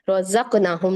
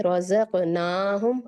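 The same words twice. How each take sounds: First: रज़क़नाहुम with ना cut to one beat; रज़क़नाहुम, short ना shown as wrong; wrong short vowel. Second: रज़क़नाहुम slowly, ना held two beats; slow recited रज़क़नाहुम with long ना; two-count vowel. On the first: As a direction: hurry over the ना of रज़क़नाहुम as a mistake. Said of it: "नहीं पढ़ेंगे". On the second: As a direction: draw out the ना in रज़क़नाहुम. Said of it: "दो हरकत तक लेके जाएं". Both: Shown as a demonstration.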